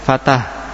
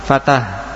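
The two takes are said the same way.

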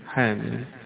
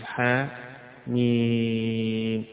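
First: The two letters run together without a pause. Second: A short pause separates the two letters. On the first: The letters are read as most reciters read them. "يقرأها الجمهور حاميم حاميم" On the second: The letters are two separate letters, not one word. "يفصل حاء ميم، يسكت بين الاثنين سكتة بغير تنفس"

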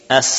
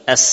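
First: Only air escapes, with no hiss. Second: A sharp whistling hiss is heard. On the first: "Tidak lagi ada sofir" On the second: "sehingga muncullah apa? Safir"

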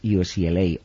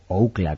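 First: The acronym is pronounced the English way. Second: The acronym is pronounced the Spanish way.

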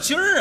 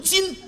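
First: The word ends with an added r-sound. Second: The word ends without an added r-sound. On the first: The speaker calls it wrong. "什么叫今儿啊" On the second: The speaker calls it right. "正字读今"

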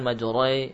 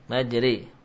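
First: The r and vowel keep some heavy quality. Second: The r and vowel are light, with no heaviness. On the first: The speaker calls it wrong. "bukan majroi... Jangan masih tersisa sifat tafkhim" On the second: The speaker calls it right. "Jadi tarqiq. Majri"

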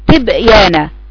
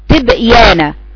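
The two takes are said the same way.

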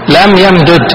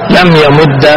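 First: The two final d sounds are said separately. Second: The two d sounds merge into one doubled d. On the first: "الفك صورة واحدة" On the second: "والإدغام ثلاث صور"

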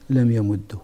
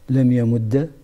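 First: The doubled d ends with a short u. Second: The doubled d ends with a short a.

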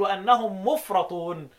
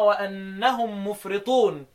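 First: The vowel after the r is a. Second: The vowel after the r is i. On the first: They are the ones left behind. "يقرأها بالفتحة لأنها اسم مفعول" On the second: They are the ones who go to excess. "اسم فاعل"

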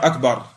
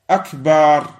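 First: The word is pronounced in its standard form. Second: The word is pronounced in an altered form. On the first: The word means greatest. The speaker calls it right. "Au lieu de dire akbar" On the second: The word means big drums. The speaker calls it wrong. "Certains, parfois, ils vont dire akbar"

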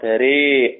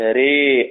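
First: Only the vowel after r is tilted toward e. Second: Only the vowel after r is tilted toward e.

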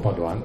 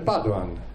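First: The stress is on the last syllable. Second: The stress is on the first syllable. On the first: The speaker calls it right. "chiamiamolo Padoan" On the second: The speaker calls it wrong. "Si sente in radio e in televisione Padoan"

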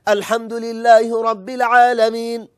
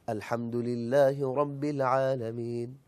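First: The phrase is recited in a loud, raised voice. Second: The phrase is recited in a soft, lowered voice. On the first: The speaker calls it wrong. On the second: The speaker calls it right.

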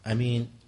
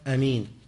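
No difference in how they are said.

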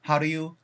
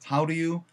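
First: Very fast, with how nearly swallowed and blurred. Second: Moderate speed, with do softened to a flapped ru. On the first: "더 빨리 넘어가면요... how 사운드까지 전달도 못 받고" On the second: "do 사운드가 루로 변할 때가 있어요"

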